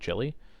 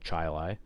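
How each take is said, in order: First: It is said like the food chili. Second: It is said unlike the food chili. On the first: This is the name of the dish. "spelled how you would spell chili, like the like the the the dish" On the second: This is the name of the town. "but it's in fact called Chili"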